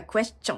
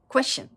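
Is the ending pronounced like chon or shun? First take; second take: chon; shun. First: The ending sounds like a katakana chon. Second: The ending sounds like a reduced shun. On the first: "question ってもう完全にカタカナですね" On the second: "シュになるんです。"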